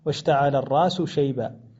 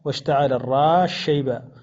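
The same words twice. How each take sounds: First: The s sound is pronounced clearly before sh. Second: The s sound merges into the following sh. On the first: "وله الإظهار أيضا" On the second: "يدغمها فيقرأ"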